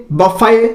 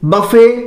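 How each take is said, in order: The two takes are said the same way.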